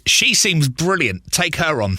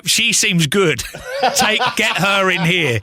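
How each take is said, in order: First: Drawn-out, deliberate mock recommendation; slow retold quote. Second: Giggling through the recommendation; laughing retold quote. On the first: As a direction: spell out the praise slowly and knowingly. Retelling what he told the boss. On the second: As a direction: laugh while telling the boss to hire her. Retelling the same line again.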